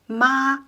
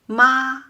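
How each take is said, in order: First: The pitch stays level and steady. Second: The pitch stays level and steady.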